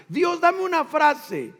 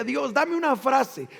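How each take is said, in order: First: Higher, slow, urgent plea to God; more urgent pleading prayer. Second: Said in the usual way. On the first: Retold or imitated. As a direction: beg God for a phrase, slower and higher. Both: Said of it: "Yo le decía".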